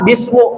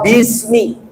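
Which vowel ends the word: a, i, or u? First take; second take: u; i. First: The word ends in a u vowel. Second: The word ends in an i vowel. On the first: The speaker calls it wrong. "Nggak boleh dibaca" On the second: The speaker calls it right. "dibacanya kasroh, maka bismi"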